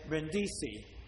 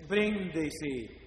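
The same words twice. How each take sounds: First: The stress is on the second syllable. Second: The stress is on the first syllable. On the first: The speaker calls it wrong. "Americans say Brindisi. Wrong" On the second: The speaker calls it right. "The accent is in the first syllable"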